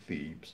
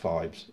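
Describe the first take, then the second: First: The first vowel sounds like 'ee'. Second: The first vowel sounds like 'eye'. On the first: This is how the other person said it. "You called it Phoebes" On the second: This is how the speaker's own group says it. "We call it Phibes"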